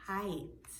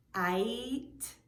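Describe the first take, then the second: First: Said in the usual way. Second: "kite" split into k, then a long I ending in t; sounded out. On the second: Shown as a demonstration. Teacher helping children hear the I sound, "kite" split as k-ite. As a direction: break "kite" after the k and stretch the rest. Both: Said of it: "Do you hear the I sound in".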